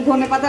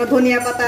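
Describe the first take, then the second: First: The local ধনে পাতা, "dhone", no extra syllable. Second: ধনিয়া with the full "niya" sounded out; quoting the correction ধনিয়া পাতা slowly. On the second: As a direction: say ধনিয়া পাতা as "dhoniya pata", three syllables, slow. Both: Retold or imitated. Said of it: "আপনি ধনে পাতা বলেন কেন?".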